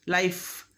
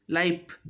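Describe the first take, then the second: First: LIFE ending in an airy F; "lifff" with friction at the end; clear final F. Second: LIFE said as "lipe"; "laip" for LIFE; final F made P. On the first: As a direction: let the F of LIFE hiss out. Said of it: "at the end of a word". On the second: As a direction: close the lips on a P to end LIFE. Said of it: "But we make it". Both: Shown as a demonstration.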